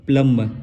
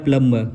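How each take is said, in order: No difference in how they are said.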